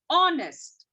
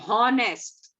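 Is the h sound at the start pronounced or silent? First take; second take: silent; pronounced. First: The word begins with no h sound. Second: The word begins with an audible h sound. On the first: The speaker calls it right. "it's honest" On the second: The speaker calls it wrong. "We don't say honest"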